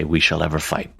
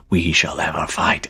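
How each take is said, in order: First: Said in the usual way. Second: A hushed whispered chorus of devils echoing "We shall ever fight"; devils' whispered echo. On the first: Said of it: "after they say". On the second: Acted. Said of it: "all the devils echo that".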